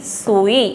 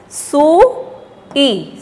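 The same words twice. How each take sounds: First: "सुई" joined in one piece, long vowels; blended word. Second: "सुई" very slowly split, long rising first vowel; sounding out. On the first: Teacher blending the word for children, stressed. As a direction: blend "सुई" smoothly after splitting it. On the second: Teacher drilling children, sounded out. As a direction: stretch "सुई" into two separate sounds. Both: Shown as a demonstration. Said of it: "जोर दे के बोलना".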